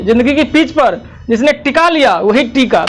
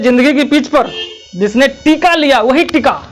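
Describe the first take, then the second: First: Short i in टिका, long ee in final टीका; vowels reversed. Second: Long ee in टीका, short i in final टिका; intended vowel lengths. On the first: Teacher reversing the slogan, short टिका then long टीका. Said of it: "उसे उल्टा कर दीजिए". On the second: Teacher saying the intended slogan, contrasting long टीका, short टिका. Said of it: "हम कहते हैं". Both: Shown as a demonstration.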